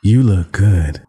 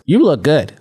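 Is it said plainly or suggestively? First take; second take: suggestively; plainly. First: It is said in a flirtatious, suggestive way. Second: It is said as a plain, innocent compliment.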